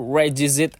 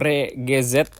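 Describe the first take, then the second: First: The name ends with a 'zit' sound. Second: The name ends with a 'zet' sound. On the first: "Kalau ada orang yang ngomong Rigazui itu Regizit" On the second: "atau Regezet"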